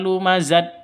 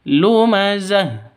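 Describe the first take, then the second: First: The word ends with a t sound. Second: The word ends with a soft h sound. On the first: The speaker calls it wrong. "bukan dibaca lumazat" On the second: The speaker calls it right. "tapi lumazah"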